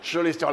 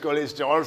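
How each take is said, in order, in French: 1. Le mot commence par un son ch. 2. Le mot commence par un son k. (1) "ça se dit chaud" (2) "Ils disent cholestérol, c'est la preuve qu'ils savent même pas lire"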